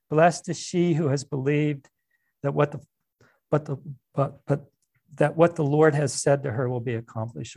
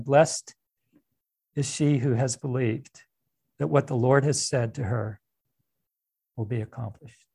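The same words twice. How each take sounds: First: Said in the usual way. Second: Preacher lingering on "Blessed", pausing before each phrase; slow deliberate rereading. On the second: Shown as a demonstration. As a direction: savour each phrase with pauses, letting the end drop away. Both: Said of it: "So read it again".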